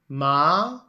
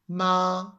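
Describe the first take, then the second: First: The pitch rises from middle to high. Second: The pitch stays high and level. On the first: It means hemp. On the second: It means mum.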